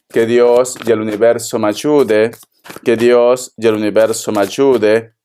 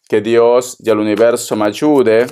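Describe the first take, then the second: First: Same solemn low plea, said again; prayerful plea. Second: Solemn low plea to God and the universe; prayerful plea. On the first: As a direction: repeat the prayer, low and steady. (súplica solemne repetida) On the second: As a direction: pray it, low and steady. (súplica solemne y grave) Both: Acted. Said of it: "repeated invocation".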